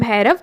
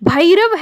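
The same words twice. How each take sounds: First: The first vowel is one steady sound. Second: The first vowel glides from a toward i. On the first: This is how people commonly say it. The speaker calls it wrong. "जिसे हम भैरव कहते हैं" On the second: This is the pure, correct pronunciation. The speaker calls it right. "वह भैरव है बच्चों"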